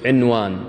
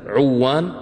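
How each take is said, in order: First: The n sound is clearly pronounced before the w. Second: The n sound is merged into the following w. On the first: The word keeps its meaning of title. The speaker calls it right. "يقول عنوان" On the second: The word loses its meaning. The speaker calls it wrong. "في واحد يقول مثلا عوان صعبة"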